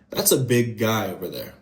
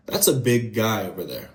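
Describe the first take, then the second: First: The G between the words is held long. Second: The same.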